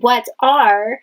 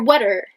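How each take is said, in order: First: Both words are said fully and separately. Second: The two words are blended into one. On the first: "instead of saying what are" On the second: "you might hear whatter"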